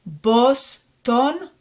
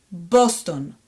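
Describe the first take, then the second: First: Boston split into BOS, TON; "Boston" in two separate beats; syllable by syllable. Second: Boston joined as one word, falling; fluent Hebrew "Boston"; fluent reading. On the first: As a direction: sound out "Boston" higher, rising, with a gap. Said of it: "read it one more time". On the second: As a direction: say "Boston" run together with round O vowels. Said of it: "more fluently". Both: Shown as a demonstration.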